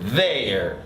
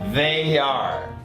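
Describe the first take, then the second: First: The words are joined into one syllable. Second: The words are said as two syllables. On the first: "la forma corta" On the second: "la forma completa"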